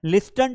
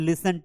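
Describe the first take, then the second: First: Listen with the t sounded, lis-ten; wrong pronunciation. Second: Listen with a silent t, lissen; correct pronunciation. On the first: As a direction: say listen with a clear t in the middle. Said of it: "हम तो लिस्टन नहीं बोलते हैं". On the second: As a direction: say listen slowly with no t. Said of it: "टी को तो हम पढ़ते ही नहीं". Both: Shown as a demonstration.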